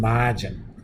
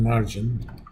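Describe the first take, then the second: First: The r is dropped, Boston accent. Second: The r is pronounced, standard American accent.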